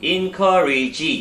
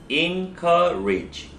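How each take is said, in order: First: The word is said with four syllables. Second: The word is said with three syllables. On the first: The speaker calls it wrong. "encourage 이렇게 읽지 말고" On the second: The speaker calls it right. "encourage 이렇게 읽는 거예요"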